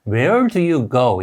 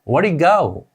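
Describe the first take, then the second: First: Each word is said separately and fully. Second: The first words run together, reduced. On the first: "우리가 알고 있는 소리는" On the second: "실제 소리는 ... 이렇게 들리게 됩니다"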